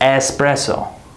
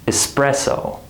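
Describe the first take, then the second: First: The first vowel is a full, unreduced vowel. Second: The first vowel is a quick, reduced schwa. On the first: The speaker calls it wrong. "We don't say espresso" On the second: The speaker calls it right. "That same schwa sound"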